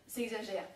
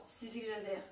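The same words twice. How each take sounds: The two takes are said the same way.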